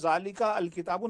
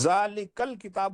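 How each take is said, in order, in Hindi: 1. 'al' का 'a' अलग से बोला जाता है। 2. 'al' का 'a' साइलेंट है, 'l' से जुड़ जाता है। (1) "नहीं है" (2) "जालिकल किताब हुआ"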